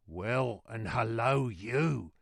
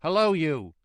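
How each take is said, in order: First: Hoarse put-on messenger voice; hoarse reply. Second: Loud, high challenging call; guard's hail. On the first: Jerry answering the guard, hoarse reply. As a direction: answer back with a rasping throat. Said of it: "more hoarsely than before". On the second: Guard hailing Jerry, loud high call. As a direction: shout a greeting as a challenge. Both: A narrator's reading.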